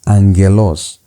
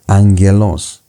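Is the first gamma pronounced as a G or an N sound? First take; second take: N; N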